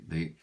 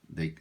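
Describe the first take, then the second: The two takes are said the same way.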